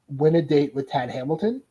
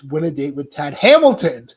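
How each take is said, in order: First: The title is said flatly, without excitement. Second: The title is said excitedly, like an exclamation.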